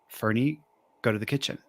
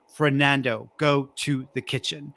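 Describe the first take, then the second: First: It is said softly and subtly. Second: It is said very loudly and authoritatively.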